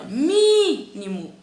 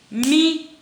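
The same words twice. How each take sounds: First: MÍNIMO with a loud, long-held MI; stretched stressed syllable. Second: MÍNIMO in separate syllables with long pauses. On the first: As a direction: hold the mi in mínimo. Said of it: "A sílaba tônica". (mínimo com o "mi" forte e alongado) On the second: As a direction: chop mínimo into mi, ni, mo. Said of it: "Vamos separar a palavra". (mínimo separado sílaba por sílaba) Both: Shown as a demonstration.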